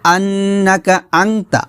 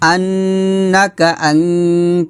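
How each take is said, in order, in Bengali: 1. শেষ শব্দটি একটি পূর্ণ স্বরধ্বনি দিয়ে শেষ হয়। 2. শেষ শব্দটি শেষ স্বরধ্বনি ছাড়াই থেমে যায়। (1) "এখানে আছে আন্নাকা আনতা" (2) "ওয়াকফ ধরলে হবে আন্নাকা আনত"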